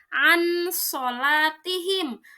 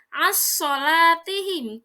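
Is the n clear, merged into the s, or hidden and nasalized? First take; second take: clear; merged. First: The n sound is pronounced clearly and fully. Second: The n merges completely into the following s. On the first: "tidak dibaca an sholatihim" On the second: "dibaca idgham"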